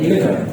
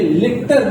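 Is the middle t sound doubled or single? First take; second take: single; doubled. First: The middle t sound is pronounced once. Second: The middle t sound is pronounced twice. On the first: The speaker calls it right. "This is लिटर" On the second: The speaker calls it wrong. "ये लिटर नहीं है"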